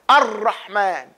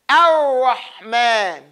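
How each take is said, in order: First: The R is rolled with the tongue touching. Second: The R is smooth without the tongue touching. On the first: The speaker calls it wrong. "the tongue touches the teeth" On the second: The speaker calls it right. "We say Ar"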